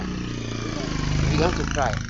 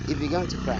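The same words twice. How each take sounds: First: Drawn out very slowly and loud, each word weighted; slow dramatic repeat. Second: Said in the usual way. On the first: Shown as a demonstration. Preacher repeats the line to the congregation, slowed for drama. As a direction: stretch "began" for emotional weight.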